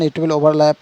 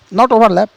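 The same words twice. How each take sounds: First: Said in the usual way. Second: "not overlap" with not pushed higher and louder; stress on not. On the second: Real, not acted. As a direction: correct yourself by hitting "not" in "not overlap". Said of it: "it will add that".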